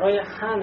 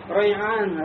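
First: The middle consonant is a breathy h sound. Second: The middle consonant is a voiced throat ayn. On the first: "айн делай переходящим в букву ха" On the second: "Ты вместо ха поставь букву айн"

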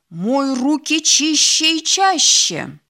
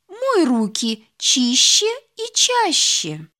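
First: It is said in a firm, stern tone. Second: It is said in a gentle, polite tone. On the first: It is a firm order. "произнеси строго" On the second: It is a kind request. "вежливо попроси"

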